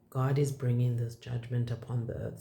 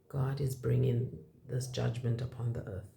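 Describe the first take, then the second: First: It is said loudly. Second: It is said quietly.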